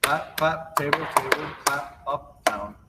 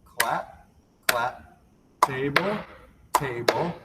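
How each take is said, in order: First: Words run together at a quicker pace; picking up the rhythm after the slow run; a little faster. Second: Each word spaced out slowly; a slow teaching pace for beginners; slow motion. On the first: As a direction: speed the calls up a bit. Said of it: "A little faster". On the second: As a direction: call the moves slowly, one by one. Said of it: "So slow motion looks like this". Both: Shown as a demonstration.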